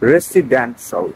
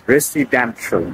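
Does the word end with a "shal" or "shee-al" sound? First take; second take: shal; shal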